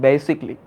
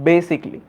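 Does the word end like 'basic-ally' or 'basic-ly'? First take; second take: basic-ly; basic-ly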